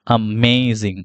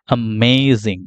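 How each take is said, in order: No difference in how they are said.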